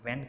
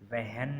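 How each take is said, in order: First: No h sound is heard before the w. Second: An h sound is heard before the w. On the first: The speaker calls it right. "हम वैन कहेंगे" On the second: The speaker calls it wrong. "वहन नहीं कहेंगे"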